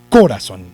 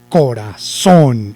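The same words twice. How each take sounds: First: The stress is on the first syllable. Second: The stress is on the last syllable. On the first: The speaker calls it wrong. "Si lo llevara en co" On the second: The speaker calls it right. "Y si lo llevara en son"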